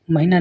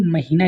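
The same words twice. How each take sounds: First: महीना with a short i; wrong short vowel. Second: महीना with a long ee; correct long vowel. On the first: Teacher shows students the mistake, short middle vowel. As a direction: say महीना as mahi-naa, quick middle. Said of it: "नहीं". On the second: Teacher corrects students, long middle vowel. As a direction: say महीना as ma-hee-naa. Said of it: "लिखते हैं". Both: Shown as a demonstration.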